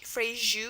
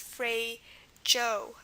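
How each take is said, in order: First: It is said with the original Portuguese pronunciation. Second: It is said with an anglicized English pronunciation. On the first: "probably the real pronunciation would be like phrase" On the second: "because this has been anglicized"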